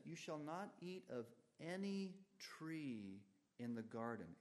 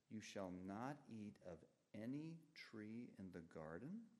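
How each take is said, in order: First: "any" lifted high, "garden" falling firmly at the end; read as an exclamation. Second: "garden" rising at the end like a real question; read as a question. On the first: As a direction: say it as a shocked exclamation, "garden" dropping down. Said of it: "but rather with an exclamation point". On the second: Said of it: "shouldn't end with a question mark". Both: Shown as a demonstration.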